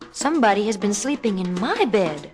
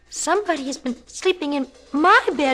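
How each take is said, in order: First: It is a medium-pitched, moderate voice. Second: It is a small, high, tiny voice.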